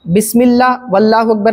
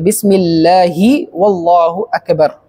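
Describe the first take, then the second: First: Bismillah ends without a final 'i' vowel. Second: Bismillah ends with a clear final 'i' vowel. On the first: The speaker calls it wrong. "ऐसे नहीं कहना" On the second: The speaker calls it right. "हा के नीचे जो ज़ेर है उसको आपने क्लियर कट बोलना है"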